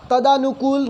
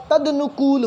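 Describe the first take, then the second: First: तदानुकूल with a long दा; wrong pronunciation. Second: तदनुकूल with a short द; correct pronunciation. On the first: Teacher to students, mimicking wrong तदानुकूल. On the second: Teacher to students, giving correct तदनुकूल. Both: Shown as a demonstration. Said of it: "तदनुकूल होता है".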